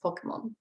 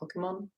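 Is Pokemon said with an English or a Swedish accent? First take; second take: Swedish; English. First: It is said with a Swedish-style pronunciation. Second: It is said with an English-style pronunciation. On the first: "In Swedish, it's Pokemon. That's with my Swedish accent" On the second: "I don't know how you pronounce Pokemon in English. Like Pokemon"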